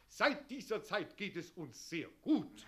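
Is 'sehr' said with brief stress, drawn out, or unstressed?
unstressed. The word 'sehr' carries little stress. The speaker calls it wrong. "Die Betonung mehr auf das sehr verlegen"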